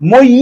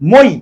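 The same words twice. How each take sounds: First: The final vowel is stretched out long. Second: The final vowel stops short and abruptly. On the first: The speaker calls it wrong. "এভাবে উচ্চারণ করা যায় না" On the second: The speaker calls it right. "মই বলে কিন্তু ধাক্কা মেরে থেমে যাচ্ছে"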